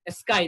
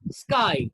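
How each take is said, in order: First: An extra vowel is added before the s. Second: The word starts directly with the s. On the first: The speaker calls it wrong. "They insert E" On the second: The speaker calls it right. "It's sky"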